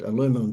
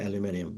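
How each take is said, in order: First: The word is said a non-Australian way. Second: The word is said the Australian way. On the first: "but aluminum fence business" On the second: "We pronounce it in Australia aluminium"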